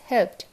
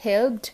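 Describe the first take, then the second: First: "helped" ending in a crisp T; voiceless T closing "helped"; correct T ending. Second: "helped" ending in a voiced D; wrong D ending. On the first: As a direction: say "helped" as "helpt". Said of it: "it is helped". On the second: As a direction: say "helped" as "helbd", with D. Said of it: "এই not". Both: Shown as a demonstration.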